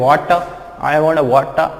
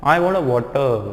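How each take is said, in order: First: Water as "waa-taa"; over-open ending. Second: Water as "waw-tuh", r only hinted; soft R ending. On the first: Teacher imitates how some people say it, over-open ending. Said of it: "कुछ लोग बोलते हैं". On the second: Teacher models the correct pronunciation, soft R ending. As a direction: let water trail into a soft uh. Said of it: "सही pronunciation होना चाहिए". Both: Shown as a demonstration.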